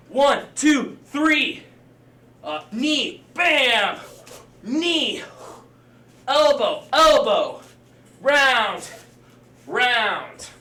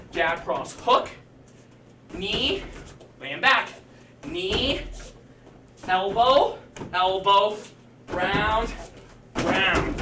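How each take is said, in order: First: Louder, higher shouted strike calls; boxing coach calling combos. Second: Steady calling of each strike; boxing coach calling combos. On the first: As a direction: bark each strike like a drill sergeant. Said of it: "If you're in the air, same thing". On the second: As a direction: coach talking through the combo. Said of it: "If you don't have your pad drill". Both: Shown as a demonstration.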